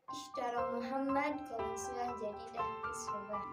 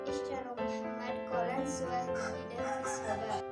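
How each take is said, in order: First: The pitch is raised on Muhammad. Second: The pitch is raised on qalansuwah. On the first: It answers who made the purchase. "kita menjawabnya itu nadanya ditinggikan" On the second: It answers what was bought. "ditanyakan apa barang yang telah dibeli"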